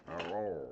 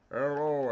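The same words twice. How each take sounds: First: Said in the usual way. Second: Calling out. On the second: Shown as a demonstration. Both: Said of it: "Oh, I can hear echo".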